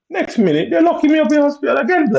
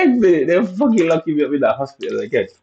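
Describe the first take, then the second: First: Very high, squealed mock outrage; high-pitched mock wail. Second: High whine easing down as it goes; mock exasperated whine. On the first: Telling viewers of being locked up again, high mock wail. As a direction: squeal it in exaggerated, loud disbelief. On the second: Repeating the lock-up complaint to viewers, exasperated high whine.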